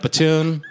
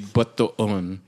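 First: The name is said with an American pronunciation. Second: The name is said with a Filipino dialect pronunciation. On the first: The speaker is thoroughly American. "I'm just straight up Batoon" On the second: This is how the dialect says it. "sure, it would be Bataon"

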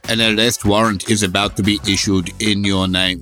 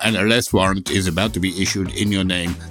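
First: It is said in a heavy Austrian-style accent. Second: It is said in a milder, less exaggerated accent. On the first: The speaker calls it wrong. "That's starting to sound quite Arnold Schwarzenegger. I may be overdoing that a little bit" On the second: The speaker calls it right. "It was more"

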